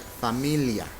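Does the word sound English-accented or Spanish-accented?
Spanish-accented. The word is said with Spanish sounds. The speaker calls it right. "So it should be like familia"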